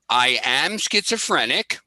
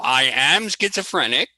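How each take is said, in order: First: It is said in a plain, ordinary way. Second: It is said with more feeling and energy.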